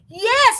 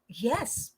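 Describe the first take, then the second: First: It is said faster and louder, very energetic. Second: It is said quickly with some energy. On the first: "Super excited. Yes, mas mabilis at malakas" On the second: "If it's enthusiastic, that is yes. Yes, mabilis"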